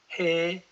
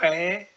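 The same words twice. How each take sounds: First: The h sounds the way Amharic says it. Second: The h sounds the way Tigrinya says it. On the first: "This letter in Amharic will be pronounced as he" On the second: "we are learning to read Tigrinya and we will pronounce it always he"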